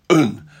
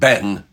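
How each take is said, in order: First: The vowel is a short, weak, reduced sound. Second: The vowel is a full, clear e sound. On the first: The speaker calls it right. "whenever you've got the E in a second syllable, un" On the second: The speaker calls it wrong. "not Ben, make sure it's not Ben"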